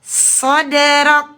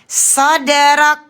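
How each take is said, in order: No difference in how they are said.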